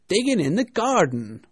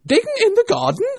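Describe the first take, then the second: First: Raised, loud servant's reply. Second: Very high, loud, outraged echo; angry rabbit. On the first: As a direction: report to the master, calling it out. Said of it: "a voice she had never heard before". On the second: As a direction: throw it back as an indignant, shouted question. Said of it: "said the rabbit angrily". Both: A narrator's reading.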